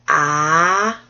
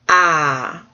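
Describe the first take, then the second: First: The pitch rises from middle to high. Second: The pitch falls sharply from high to low. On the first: "another one that goes up" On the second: "did I do the down one?"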